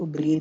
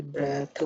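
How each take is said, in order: First: "ब्रीथ" said breed, with dental d ending; long ee vowel. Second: "ब्रेथ" with e vowel and final th; correct short vowel. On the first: Teacher contrasting breathe with breath, long-ee pronunciation. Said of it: "इसको ब्रीथ नहीं बोलेंगे". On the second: Teacher giving the noun breath, th-ending pronunciation. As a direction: say "ब्रेथ" as breth. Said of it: "ब्रेथ बोलते हैं". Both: Shown as a demonstration.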